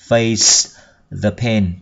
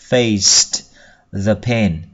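First: The final t of faced is dropped. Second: The final t of faced is clearly pronounced. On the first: "nhưng khi đọc nhanh thì ta bỏ đi" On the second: "Âm ID ở đây đọc là tờ"

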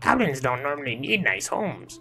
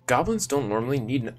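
First: It is said in a put-on goblin voice. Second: It is read in his normal voice.

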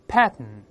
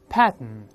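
The two takes are said the same way.

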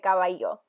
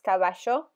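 First: The double L sounds like y. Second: The double L sounds like sh. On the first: "like Ecuador, they'll say caballo. So it's more of the Y sound" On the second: "In Argentina, they pronounce the double L as a sh sound"

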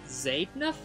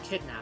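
First: The first vowel is a gliding diphthong. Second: The first vowel is a plain short vowel. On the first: "he pronounces the first vowel as a diphthong" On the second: "Mias Jamal proposes pronouncing it kidnap"

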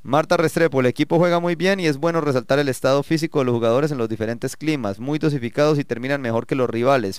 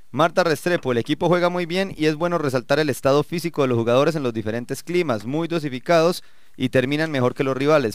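Both takes have the same delivery.

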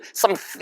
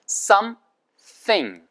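First: The two parts run together without any break. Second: A slight break comes before the th sound. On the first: The speaker calls it wrong. "그 사이에 참지 못하고 소리를 something 이렇게 내시면 안 되는 거예요" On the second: The speaker calls it right. "some 하고 끊고 살짝 끊고 혀 끝이 치아 사이에 물린 다음부터 스 발음을 당기면서 내셔"

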